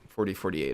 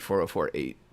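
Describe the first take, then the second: First: The number is read out in two pairs. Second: The number is read out digit by digit. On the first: "I think is more typical pronunciation" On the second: "So in my head, it's"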